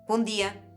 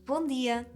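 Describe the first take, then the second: First: It is said in a harsh, aggressive tone. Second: It is said in a warm, friendly tone.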